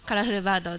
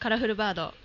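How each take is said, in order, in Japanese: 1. 標準語で話されています。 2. エセ関西弁で話されています。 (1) "じゃあ普通で" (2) "関西弁で今後の告知ですか"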